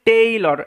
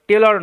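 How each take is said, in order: First: The first vowel is a long 'ay' glide. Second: The first vowel is a short 'e' sound. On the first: The speaker calls it right. "এটার উচ্চারণটা হচ্ছে টেইলর" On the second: The speaker calls it wrong. "টেলর নয় কিন্তু"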